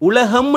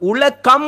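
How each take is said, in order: First: The middle consonant is a soft h sound. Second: The middle consonant is a hard k sound. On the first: The speaker calls it right. "உலகம் என்று வாசிக்கிறோம்" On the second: The speaker calls it wrong. "உலகம் என்று வாசிக்கிறது இல்லையே"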